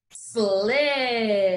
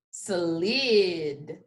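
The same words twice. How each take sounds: First: Sled drawn out slowly. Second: Slid stretched, s-l-i-d; blended word. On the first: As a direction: stretch Sled for the class. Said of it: "say it slowly". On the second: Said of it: "I'm gonna sound it out". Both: Shown as a demonstration.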